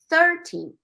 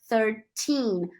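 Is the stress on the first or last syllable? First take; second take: first; last. First: The stress is on the first syllable. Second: The stress is on the last syllable. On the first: The speaker calls it wrong. "So you don't say thirteen" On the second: The speaker calls it right. "the last syllable is the one that should be stressed"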